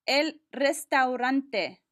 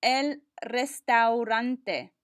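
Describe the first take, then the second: First: Slow "el restaurante" with each vowel; enunciated slowly. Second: Very slow "El restaurante", each vowel clear; slower, every vowel. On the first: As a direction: give every vowel of "el restaurante" its space. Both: Shown as a demonstration. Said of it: "You have to say it a little slower and enunciate every vowel".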